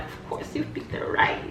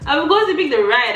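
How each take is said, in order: First: Whispered "Of course you picked the ride", soft and low; smug whisper. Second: "Of course you picked the ride" cried out high and loud; triumphant exclaim. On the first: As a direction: hush it like a secret. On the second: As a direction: crow it out in triumph. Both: Retold or imitated. Repeating her own retold line.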